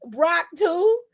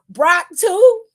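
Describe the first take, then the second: First: Higher, questioning repeat of Brock too, not shouted; echoed disbelief. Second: Loud, high disbelieving outcry of Brock too; incredulous shout. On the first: Repeats the question more softly. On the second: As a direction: yell Brock too like you can't believe it. Incredulous exclamation. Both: Real, not acted.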